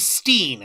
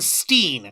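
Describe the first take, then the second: First: The vowel sounds like 'ee', rhyming with 'seen'. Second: The vowel sounds like 'ee', rhyming with 'seen'.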